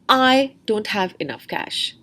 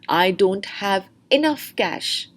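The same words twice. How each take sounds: First: The stress falls on the word I. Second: The stress falls on the word enough. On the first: "The stress is on the person I" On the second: "Now the stress is on enough"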